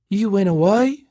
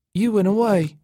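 First: High, thin disbelieving question rising at the end. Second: High, thin statement falling at the end. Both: A narrator's reading. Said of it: "she said in a thin voice".

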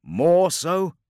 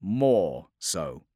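First: "More so?" high and loud, rising at the end; "More so?" as a raised, rising question. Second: "More so" as a falling statement; "More so" in a measured falling tone; echoed confirmation. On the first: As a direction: ask "More so?" with a sharp upward lift. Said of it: "asked Cassian". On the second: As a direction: confirm "More so" gravely, voice dropping at the end. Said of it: "echoed Keretreus". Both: Acted.

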